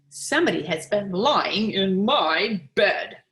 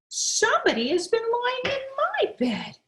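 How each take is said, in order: First: It is said in a big, deep voice. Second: It is said in a medium-sized voice.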